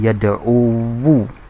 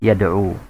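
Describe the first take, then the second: First: The word ends with an added wu syllable. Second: The word ends in a single short u. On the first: The final vowel mark is spoken aloud and sounds heavy. The speaker calls it wrong. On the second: The final vowel mark is left unpronounced. The speaker calls it right.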